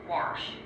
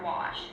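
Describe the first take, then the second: First: The word is said with an added r sound. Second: The word is said without an r sound.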